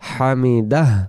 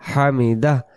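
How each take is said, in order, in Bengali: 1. শব্দটি একটি চাপা, শ্বাসযুক্ত h দিয়ে শেষ হয়। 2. শব্দটি একটি চাপা, শ্বাসযুক্ত h দিয়ে শেষ হয়।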